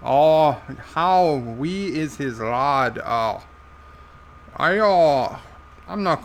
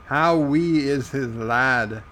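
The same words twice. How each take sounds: First: Broad put-on Irish accent; Irish character voice. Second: Slow, lightly Irish lilt; slight Irish accent. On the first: Joe echoing the viewer's question, thick Irish accent. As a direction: repeat it slowly as an Irish character. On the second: Acted. Host reading a viewer's question, slipping into Irish accent. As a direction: read it with a hint of Irish. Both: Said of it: "you're making me speak with an Irish accent".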